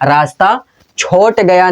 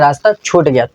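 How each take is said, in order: First: The verb has a long 'o' vowel. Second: The verb has a long 'oo' vowel. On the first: The speaker calls it wrong. "नहीं" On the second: The speaker calls it right. "बल्कि रास्ता छूट गया"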